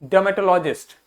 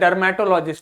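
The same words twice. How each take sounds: First: The r sound is left out of the word. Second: The r sound is pronounced in the word. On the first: The speaker calls it right. "आर को बोलना नहीं है" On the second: The speaker calls it wrong. "ये नहीं बोलना"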